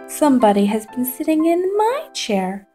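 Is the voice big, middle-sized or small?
small. It is said in a little wee voice.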